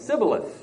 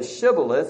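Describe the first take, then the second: First: The word begins with an s sound. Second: The word begins with a sh sound. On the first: The speaker calls it wrong. "They couldn't say the sh sound" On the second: The speaker calls it right. "they could not say Shibboleth"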